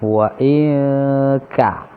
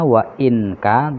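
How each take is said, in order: First: The n is hidden and nasalized before the k. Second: The n is pronounced clearly before the k. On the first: "samar dan mendengung"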